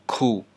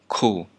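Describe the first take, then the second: Both takes have the same delivery.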